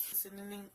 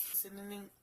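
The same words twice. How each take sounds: The two takes are said the same way.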